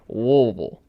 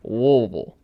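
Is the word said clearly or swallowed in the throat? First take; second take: swallowed; swallowed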